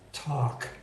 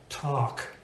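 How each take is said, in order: The two takes are said the same way.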